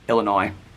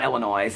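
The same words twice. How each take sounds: First: The word ends without any S sound. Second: The word ends with an audible S sound. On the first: The speaker calls it right. "There's no S" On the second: The speaker calls it wrong. "if they say Illinois with an S"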